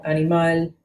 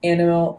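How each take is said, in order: First: Animal in Spanish, stress on the last syllable, a-ni-MAL; Spanish animal with open vowels; Spanish pronunciation. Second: Animal in English, stress on the first syllable, AN-i-mal; plain English animal; English pronunciation. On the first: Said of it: "animal carries the emphasis on the final syllable". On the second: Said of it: "cognates in Spanish and English". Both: Shown as a demonstration.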